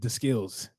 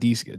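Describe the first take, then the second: First: The first word is said like 'the'. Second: The first word is said like 'dee'. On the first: "Maybe he does pronounce it "the skills,"" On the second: "not D skills"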